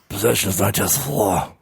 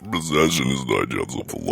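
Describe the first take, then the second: First: It is said in a mildly sinister voice. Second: It is said in a very sinister voice.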